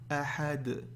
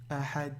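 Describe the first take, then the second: First: The final d sound is clearly pronounced. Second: The final d sound is not heard. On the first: The speaker calls it right. "faites bien le del à la fin, qu'on l'entende" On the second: The speaker calls it wrong. "Ne dites pas ahad, ahad. Là, on n'entend rien"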